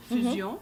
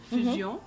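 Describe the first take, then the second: First: It is said with a French pronunciation. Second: The same.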